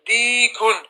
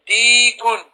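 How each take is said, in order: Both takes have the same delivery.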